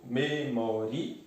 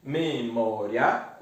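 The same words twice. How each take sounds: First: MEMORIA in four slow syllables, me-mó-ri-a; final vowels split. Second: MEMÓRIA in three slow syllables, me-mó-ria; final diphthong kept together. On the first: Teacher showing the second separation, MEMORIA with final I-A in hiatus. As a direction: split MEMORIA slowly, I and A apart. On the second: Teacher showing the first separation, MEMÓRIA with RIA as one syllable. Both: Shown as a demonstration. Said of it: "de duas maneiras distintas".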